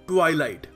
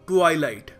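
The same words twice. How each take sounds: First: The first syllable has an 'eye' vowel. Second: The first syllable has an 'eye' vowel.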